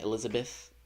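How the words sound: The last syllable has an 'eh' vowel, like 'beth'. The speaker is American. "That's how Americans say it"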